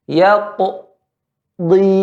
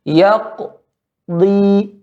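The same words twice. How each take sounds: The two takes are said the same way.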